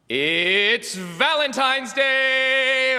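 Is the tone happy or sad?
happy. It is said in a happy, excited tone.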